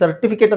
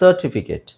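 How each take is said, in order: First: The r sound in the first syllable is short. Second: The r sound in the first syllable is drawn out. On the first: The speaker calls it wrong. "ನಾವು common ಆಗಿ ಸರ್ಟಿಫಿಕೇಟ್ ಅಂತ ಹೇಳ್ತೀವಿ" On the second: The speaker calls it right. "ಸರ್ಟಿಫಿಕೇಟ್ ಅಂದ್ರೆ ಸನ ಎಳಿಬೇಕು"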